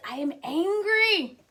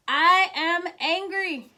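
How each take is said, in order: First: Said in the usual way. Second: Slower and firmer on "I am angry"; stressed repeat. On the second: Real, not acted. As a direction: lean into "angry" as a confession. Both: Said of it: "my truth is".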